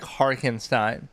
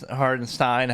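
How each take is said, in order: First: The middle consonant is a K sound. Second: The middle consonant is a D or T sound. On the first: "they always say it with a K" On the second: "however you say it"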